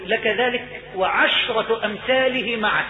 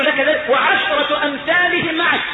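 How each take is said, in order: First: Measured, drawn-out pronouncement; solemn granting. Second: High, drawn-out proclamation; exultant granting. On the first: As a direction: grant it slowly and gravely. رواية عطاء الرب للعبد. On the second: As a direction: proclaim the gift slowly, in wonder. إعادة العطاء بتعظيم. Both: Acted.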